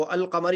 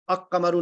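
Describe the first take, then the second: First: "अल कमर" with a clear l before the k; correctly separated. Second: "अक कमरु" with the l turned into a k; wrongly joined. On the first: Teacher explaining the unbroken word rule, "अल कमर" with l pronounced. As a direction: sound "अल" on its own, then "कमर". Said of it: "वो अल कमर ही पढ़ेंगे". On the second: Teacher warning against this reading, "अक कमरु" merged on k. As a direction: double the k and drop the l in "अक कमरु". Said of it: "उसको अक कमरु नहीं पढ़ेंगे". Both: Shown as a demonstration.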